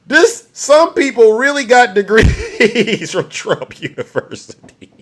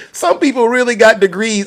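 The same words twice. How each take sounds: First: Slow, laugh taking over the words, fading at the end; breaking into laughter. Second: Said in the usual way. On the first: Real, not acted. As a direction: struggle to finish through real laughter. Repeats it, overcome with laughter.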